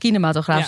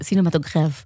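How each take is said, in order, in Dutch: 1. Het woord begint met een k-klank. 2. Het woord begint met een s-klank. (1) "we zullen hier vast kinematograaf zeggen" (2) "En daar cinematograaf"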